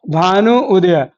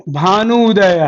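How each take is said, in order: First: Slow, spelled-out. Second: Said in the usual way. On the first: Shown as a demonstration. Teacher slowing down so students hear Bhanu उदय clearly. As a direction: say Bhanu उदय slowly, each part drawn out. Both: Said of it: "गौर से देखिएगा".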